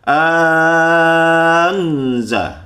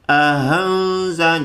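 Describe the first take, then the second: First: The second glottal stop becomes a very long vowel. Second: The second glottal stop is softened like a light h. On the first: Another tradition replaces the second glottal stop with a long vowel. "dipanjangkan hingga enam harokat" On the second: Another tradition softens the second glottal stop. "hamzah yang kedua itu dibacanya agak ringan, seperti ada lafaz ha, tapi ha ringan"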